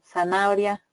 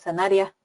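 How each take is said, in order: First: Every vowel is pronounced clearly and separately. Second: The middle vowels are merged and shortened together. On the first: The speaker calls it right. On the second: The speaker calls it wrong.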